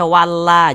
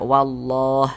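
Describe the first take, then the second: First: The L sound is light and thin. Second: The L sound is heavy and dark. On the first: The speaker calls it wrong. "Jangan dibaca walla" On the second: The speaker calls it right. "kita baca tebal"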